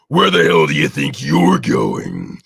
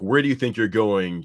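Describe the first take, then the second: First: It is said in a gruff Hulk-Macho Man voice. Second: It is said in a normal speaking voice.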